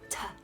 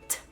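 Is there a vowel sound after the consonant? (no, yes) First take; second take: yes; no. First: The consonant is followed by a vowel sound. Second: The consonant is said alone without a vowel. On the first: The speaker calls it wrong. "Or T, ta" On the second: The speaker calls it right. "Mm-mm. It's t"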